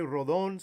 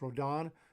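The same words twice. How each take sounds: First: The name is pronounced the Spanish way. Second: The name is pronounced the English way. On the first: The speaker calls it wrong. "I just pronounce it in Spanish" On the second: The speaker calls it right. "people tell me it's Rodon"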